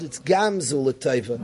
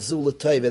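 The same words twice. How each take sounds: First: "gam" hit, then "zu l'taiva" eased; stress on gam. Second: Said in the usual way. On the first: Shown as a demonstration. Correcting how we say it in this world, gam stressed. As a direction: lean into "gam" before "zu l'taiva". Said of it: "In this world". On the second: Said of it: "we don't say in this world".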